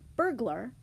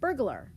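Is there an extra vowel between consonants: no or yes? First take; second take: no; yes. First: The consonants are said without an added vowel. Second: An extra schwa breaks up the consonant cluster. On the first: "When we say this word, which is burglar" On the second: "oftentimes we people say burglar"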